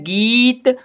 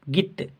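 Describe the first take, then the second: First: The vowel is long and drawn out. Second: The vowel is short and clipped. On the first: The speaker calls it right. "ये है गीत" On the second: The speaker calls it wrong. "कम समय के लिए ध्वनि निकल रही है गित"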